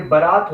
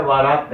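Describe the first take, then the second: First: बारात said with a clear b sound; बारात, starting on a firm b; correct spelling. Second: वारात said with a v sound in place of b; wrong spelling. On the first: Teacher showing students the right form, बारात with b. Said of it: "ये बारात होता है". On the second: Teacher showing students the wrong form, वारात with v. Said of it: "वारात नहीं होता". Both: Shown as a demonstration.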